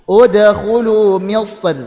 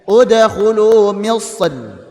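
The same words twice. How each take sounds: The two takes are said the same way.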